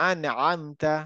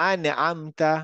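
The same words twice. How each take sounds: No difference in how they are said.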